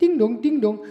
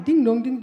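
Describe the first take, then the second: First: Sung ding dong like a doorbell chime; doorbell imitation. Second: Shorter ding dong chime; doorbell imitation. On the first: Comic telling the courier how to ring, doorbell chime. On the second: Comic showing the double ring again, doorbell chime.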